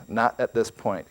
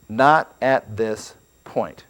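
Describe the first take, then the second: First: Said in the usual way. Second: Not at this point drawn out slowly, NOT hit hardest; slow emphatic stress. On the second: Shown as a demonstration. Preacher driving home a point to his audience, slow and stressed. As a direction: lean on Not and let each word land slowly. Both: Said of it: "I want you to remember this".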